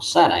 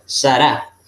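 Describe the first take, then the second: First: The stress is on the first syllable. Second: The stress is on the last syllable. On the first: This is the common Spanish form of the name. The speaker calls it wrong. "se traduce comúnmente como Sara en español" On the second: This is the original Hebrew form of the name. The speaker calls it right. "en la última sílaba se va a acentuar más fuerte. Por eso se pronuncia Sará"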